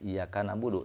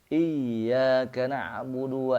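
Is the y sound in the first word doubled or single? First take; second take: single; doubled. First: The y sound is short and single. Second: The y sound is pressed and doubled. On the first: The speaker calls it wrong. "ulah tika macana" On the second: The speaker calls it right. "i ditekan dulu ya karena ada tasydid"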